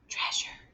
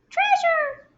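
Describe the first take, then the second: First: It is said in a whisper. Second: It is said in a tiny, squeaky voice. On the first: "Whisper it" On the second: "Mouse voice it"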